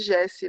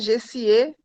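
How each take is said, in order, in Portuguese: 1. O nome é falado sem o sotaque francês. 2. O nome é falado em estilo francês. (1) "Acaba tirando o acento dali" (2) "é como se fosse um nome francês"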